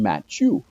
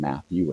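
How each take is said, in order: First: The name is said with French pronunciation. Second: The name is said with English pronunciation. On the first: "Frenchified or localized the pronunciation of his name" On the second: "I still always call him Matthew in English"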